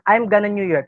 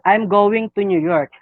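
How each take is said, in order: First: 'Going to' is reduced to 'gonna'. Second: 'Going to' is said in full. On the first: The speaker calls it wrong. "Do you think uh, this is right?" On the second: The speaker calls it right. "because going to is the main verb"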